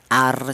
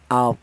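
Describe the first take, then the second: First: The r is pronounced thin and light. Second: The r is pronounced heavy and deep. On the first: The speaker calls it wrong. "Jangan dibaca tipis" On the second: The speaker calls it right. "tapi dibaca tebal"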